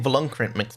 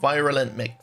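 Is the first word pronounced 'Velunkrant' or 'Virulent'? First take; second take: Velunkrant; Virulent. First: The first word is pronounced 'Velunkrant'. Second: The first word is pronounced 'Virulent'. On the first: The speaker calls it wrong. "I've been saying it wrong this whole time" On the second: The speaker calls it right. "please don't tell me it's called Virulent"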